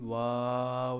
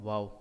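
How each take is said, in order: First: The vowel is drawn out and lengthened. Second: The vowel is said short, without lengthening. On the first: The speaker calls it wrong. "इसको कभी भी वाव नहीं बोला गया। ... कोई मद अगर करता है तो गलत करता है" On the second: The speaker calls it right. "तो इसको बोला जाता है वाव। ... यहाँ पर मद नहीं है"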